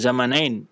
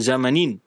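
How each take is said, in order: First: The last syllable has the vowel 'ai'. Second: The last syllable has a plain 'i' vowel. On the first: The speaker calls it wrong. "kadang-kadang kita baca Zamanain" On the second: The speaker calls it right. "yang benarnya Zamanin"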